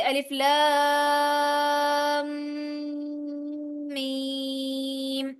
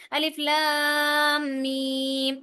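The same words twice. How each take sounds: First: Slow recitation, لام merged into میم with nasal ghunna; tajweed recitation. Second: الف لام میم read with letters kept apart, no ghunna; imitating a wrong reading. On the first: Teacher gives students the correct tajweed reading, slow recitation. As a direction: draw out الف لام, press لام into میم. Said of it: "جیسے". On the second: Teacher shows students a common mistake, mock wrong reading. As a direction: mimic how some people misread الف لام میم. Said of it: "کچھ لوگ پڑھتے ہیں". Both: Shown as a demonstration.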